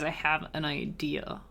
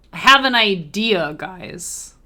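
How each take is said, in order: First: Soft, muttered to herself; quiet murmur. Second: Louder, excited call to the viewers; loud announcement. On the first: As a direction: mumble the idea quietly. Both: Real, not acted. Idea said twice.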